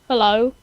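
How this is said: It is said in a smooth, romantic way.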